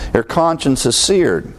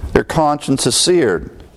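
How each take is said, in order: First: Said in the usual way. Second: "seared" landed slowly and weighted; slow emphatic repeat. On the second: Shown as a demonstration. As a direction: drag out "Their conscience is seared" and lean on "seared". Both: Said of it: "repeated slower for emphasis".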